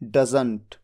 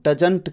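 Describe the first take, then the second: First: The middle consonant is a 'z' sound. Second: The middle consonant is a 'j' sound. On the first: The speaker calls it right. "जबकि ज कहते हैं, ज, ज, जिसमें नीचे बिंदु होता है" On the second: The speaker calls it wrong. "इसे डजंट को डजंट कह देना"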